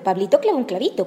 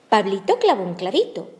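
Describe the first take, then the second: First: It is said at the fastest pace. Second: It is said at a slower, ordinary pace. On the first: "Más rápido" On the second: "De nuevo"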